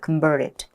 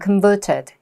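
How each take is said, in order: First: It has an American accent with an r sound. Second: It has a British accent with no r sound. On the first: "미국 오빠들은 또 굴려. 리을 발음을 해" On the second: "영국 오빠나 호주 오빠 읽었으면 converted"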